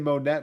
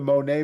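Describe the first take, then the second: First: The name ends with a clear T sound. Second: The name ends without a T sound. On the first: "maybe the double T it makes it Monette" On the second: "I believe it's Monet"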